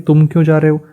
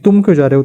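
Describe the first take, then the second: First: It sounds like a neutral, curious question. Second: It sounds like a protest against leaving. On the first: The speaker wants to know the reason for going. "कारण जानना" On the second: The person should not go and should stay. "दूसरा अर्थ क्या है, जिन्हें नहीं जाना चाहिए"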